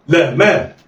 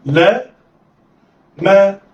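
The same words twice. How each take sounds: First: "لا ما" joined in one quick go; snatch "لا ما" with no pause; snatched together. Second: "لا", a clear pause, then "ما"; letters sounded apart. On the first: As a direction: blend "لا ما" like one word. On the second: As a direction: say "لا" and "ما" as separate syllables. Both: Shown as a demonstration. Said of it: "دي طريقة الخطف".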